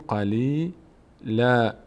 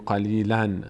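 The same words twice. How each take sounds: First: The word ends with a long a vowel. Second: The word ends with an n sound. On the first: The speaker calls it right. "این نون آخری رو ما در نظر نمیگیریم" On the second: The speaker calls it wrong. "دیگه نمیگیم قلیلا"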